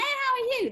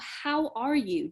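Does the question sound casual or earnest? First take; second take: casual; earnest. First: It is said lightly, as a passing greeting. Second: It is said earnestly, as a sincere question. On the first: It is only a routine greeting. "They're not just saying, hey" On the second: The asker truly wants to know and offers help. "They're saying, no"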